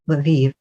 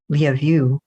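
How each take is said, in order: First: The name is one syllable, sounding like Lviv. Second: The name sounds like the words love you. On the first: This is how Americans say it. The speaker calls it wrong. "supposedly the American pronunciation is Lviv, which is hilariously not what it should be" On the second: This is how it is said in Ukraine. The speaker calls it right. "in Ukraine, which is where it is now, it's Lyavu, which sounds like love you"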